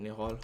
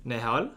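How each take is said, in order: First: Soft, unsure Russian-accented "Nihol"; half-hearted Russian accent on the name; attempted Russian accent. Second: "Nihol" in an Indian accent, rising sharply at the end; lilting Indian accent. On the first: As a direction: give "Nihol" a faint Russian accent, tentatively. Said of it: "pronounce my name in a Russian accent". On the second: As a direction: say the name with an Indian lilt, like a question. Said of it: "What about Indian accent?". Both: Shown as a demonstration.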